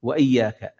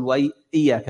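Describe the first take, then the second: First: وإياك with a crisp glottal stop on the hamza; clear hamza. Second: إياك with the hamza slurred away; dropped hamza. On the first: Shown as a demonstration. Teacher modelling the correct hamza in وإياك. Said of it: "وإياك فاهمز". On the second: Retold or imitated. Teacher imitating a reciter who blurs the hamza. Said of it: "بعض الناس يقول".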